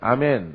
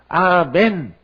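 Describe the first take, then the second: First: It is said in a plain, everyday manner. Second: It is said in a deliberately holy, solemn manner. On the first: The speaker is saying it as usual. "내가 평상시에는 아멘" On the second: The speaker is trying to sound more devout. "내가 거룩하게 해야 되겠다. 아멘 이렇게 했단 말이에요"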